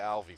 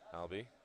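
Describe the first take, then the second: First: The middle consonant is a V sound. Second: The middle consonant is a B sound. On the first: The speaker calls it wrong. "I want to call you Alvi for some reason" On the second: The speaker calls it right. "The I's and the V's and the B's get me messed up"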